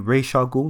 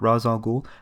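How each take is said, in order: First: The first word ends in an 'sh' sound. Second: The first word ends in a 'z' sound. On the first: This is the officially sanctioned pronunciation. The speaker calls it right. "it is actually" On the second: This is not the officially sanctioned pronunciation. The speaker calls it wrong.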